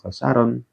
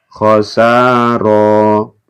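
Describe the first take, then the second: First: The word ends with a final n sound. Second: The word ends on a vowel, without final n. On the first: The speaker calls it wrong. "bukan khosaron" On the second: The speaker calls it right. "Ketika diwakafkan khosaro"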